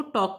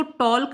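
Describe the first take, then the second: First: टॉक said with no l, straight to k; correct silent l. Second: टॉल्क with the l sounded before k; wrong spelt-out l. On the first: Teacher giving students the correct टॉक, no l. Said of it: "हम इसको टॉक बोलते हैं". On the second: Teacher showing students the wrong टॉल्क with l sounded. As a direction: say टॉल्क voicing the l. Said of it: "हम इसको टॉल्क नहीं बोलते". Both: Shown as a demonstration.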